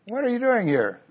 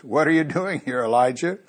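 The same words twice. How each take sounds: First: What are you doing here, much higher with weight on are; repeated pointed question. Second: Said in the usual way. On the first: Shown as a demonstration. Preacher repeats the Lord's question to the congregation, higher and pointed. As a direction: lift the whole question high and lean on are. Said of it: "Has he ever asked you that?". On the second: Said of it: "familiar words".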